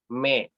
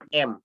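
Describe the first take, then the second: First: The vowel comes after the consonant: me. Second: The vowel comes before the consonant: em. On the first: The speaker calls it right. "tapi me" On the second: The speaker calls it wrong. "bukan M"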